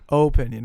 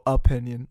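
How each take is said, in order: First: The first vowel sounds like 'oh'. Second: The first vowel sounds like 'uh'. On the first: "I like the O" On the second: "some people go opinion, like U P I"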